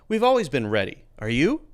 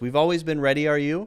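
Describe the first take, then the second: First: It stops briefly after a rise-fall on ready. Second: It runs on without a stop after ready. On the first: The speaker calls it right. "you need a little pause as a way to mark the sentence" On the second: The speaker calls it wrong. "does that mean we should say it like this? ... Somehow it doesn't sound right"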